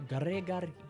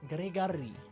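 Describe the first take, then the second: First: The stress is on the third syllable. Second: The same.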